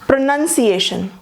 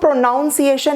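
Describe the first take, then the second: First: The second syllable sounds like 'nun'. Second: The second syllable sounds like 'noun'. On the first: The speaker calls it right. "यहाँ नन है।" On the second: The speaker calls it wrong. "इसे हम प्रोनाउंसिएशन नहीं कहेंगे, यहाँ नाउन है"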